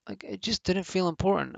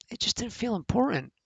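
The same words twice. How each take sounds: First: Said in the usual way. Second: Mocking high voice. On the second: Shown as a demonstration. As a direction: say it up high, almost mocking the feeling.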